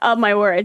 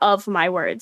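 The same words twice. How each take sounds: First: The f sound in 'of' is dropped. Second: The f sound in 'of' is clearly pronounced.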